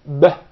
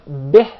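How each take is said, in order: First: The vowel drifts open, toward an a sound. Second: The vowel is a clear i with spread lips. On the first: The speaker calls it wrong. "when you mispronounce it" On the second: The speaker calls it right. "the كسرة is with a smile"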